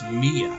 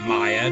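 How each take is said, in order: First: The first vowel sounds like 'ee'. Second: The first vowel sounds like 'eye'. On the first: The speaker calls it right. "the I again is an E" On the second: The speaker calls it wrong. "You think Maya? No"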